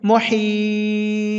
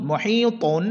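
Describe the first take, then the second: First: মুহিত very slow, long "hii", bouncing final ত; qalqalah on ত. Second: মুহিতুন with its full "tun" ending; tanween ending. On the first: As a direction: stretch মুহিত, then bounce briefly off the ত. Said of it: "ততে আমরা কলকলা করব". (মুহিত টেনে, শেষে ত-তে কলকলা) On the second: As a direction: say মুহিতুন through to the final n. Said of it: "ত দুই পেশ তুন". (মুহিতুন, শেষে তুন স্পষ্ট) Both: Shown as a demonstration.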